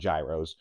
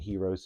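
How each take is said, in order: First: It is said the Pittsburgh way. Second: It is said the standard way.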